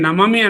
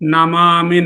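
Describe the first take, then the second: First: The middle vowel is short. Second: The middle vowel is long. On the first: The speaker calls it wrong. "నమమి అనకుండా" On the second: The speaker calls it right. "నమామి అంటున్నాం"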